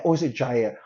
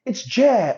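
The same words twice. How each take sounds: First: "Jair" said lower, like "jeye"; "Jair" pronounced "jeye", dropped; other pronunciation of Jair. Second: "Jair" said higher, like "jeh"; "Jair" pronounced "jeh", lifted; one pronunciation of Jair. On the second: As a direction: try "Jair" as "jeh", falling. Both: Shown as a demonstration. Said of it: "Am I saying that right?".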